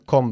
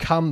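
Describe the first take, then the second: First: "come" with a rounded o vowel, like "kom"; mispronounced example. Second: "come" with a short open uh vowel, like "kum"; correct pronunciation. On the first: Teacher shows student what to avoid, "come" said as "kom". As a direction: say "come" wrongly, as "komb" with an o. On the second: Teacher corrects student on later return phrase, "come" said as "kum". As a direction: say "come" to rhyme with "hum". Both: Shown as a demonstration. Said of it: "not to come back later".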